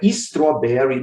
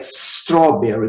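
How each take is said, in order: First: An 'ee' vowel is added before the s. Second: No vowel is added before the s. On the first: The speaker calls it wrong. "Você não vai colocar um I nem um E antes desse S. Não é strawberry" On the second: The speaker calls it right. "É strawberry"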